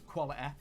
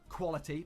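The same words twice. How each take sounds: First: The final vowel is an e sound. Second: The final vowel is a plain y sound.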